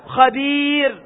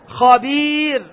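The two takes are said the same way.

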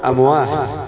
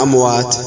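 First: The word ends with an h sound. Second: The word ends with a t sound. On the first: The speaker calls it wrong. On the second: The speaker calls it right.

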